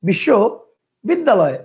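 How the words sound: The word is broken into two separate chunks. "কয়টা হইলো? দুইটা।"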